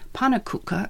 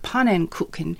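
First: The word has a relaxed, everyday pronunciation. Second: The word has a careful, over-precise pronunciation. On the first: This is how people ordinarily say it. "they should no longer say pannekoeken at the pancake stand" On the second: This is the form insisted on as correct. "He insisted on a hyper-correct pronunciation"

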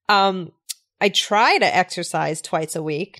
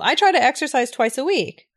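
First: It is said with a doubtful, negative tone. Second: It is said with a bright, positive tone. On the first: The speaker does not really exercise that often. "Does that sound more negative or positive?" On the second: The speaker does exercise regularly. "that sounds more on the positive side"

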